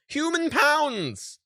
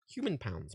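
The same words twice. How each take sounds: First: Human pounds drawn out slowly, much higher and louder; shocked disbelief. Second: Said in the usual way. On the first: Real, not acted. Shocked at the sticker price.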